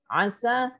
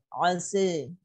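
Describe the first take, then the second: First: The final vowel is an open a. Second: The final vowel leans toward e. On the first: "bil fathah"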